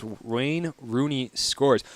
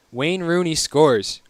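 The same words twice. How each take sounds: First: Very slow, a bit softer, tasting each word; drawn out as if testing how odd it sounds; savoring the odd phrase. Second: Said in the usual way. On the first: Shown as a demonstration. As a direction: stretch it out, amused disbelief. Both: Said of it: "that's a weird thing to say".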